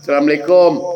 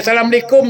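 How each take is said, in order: First: Said in the usual way. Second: Raised, courteous greeting; polite salam. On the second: Retold or imitated. (salam yang sopan, nada naik) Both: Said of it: "Pakai "Assalamualaikum" tu".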